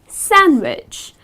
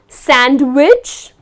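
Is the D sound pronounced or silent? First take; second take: silent; pronounced. First: The D sound is silent. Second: The D sound is pronounced. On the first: The speaker calls it right. "you do not pronounce the letter D" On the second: The speaker calls it wrong. "it's not sandwich"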